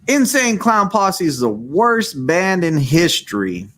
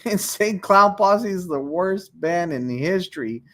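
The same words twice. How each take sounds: First: It is read in a put-on character voice. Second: It is read in the speaker's normal voice. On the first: "So here's a random voice" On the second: "I should have read it in one of my voices"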